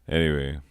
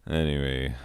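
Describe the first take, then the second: The two takes are said the same way.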